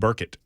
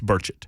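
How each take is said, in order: First: The middle consonant is a hard k sound. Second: The middle consonant is a ch sound. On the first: The speaker calls it wrong. "that was not correct" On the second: The speaker calls it right. "It's Burchett"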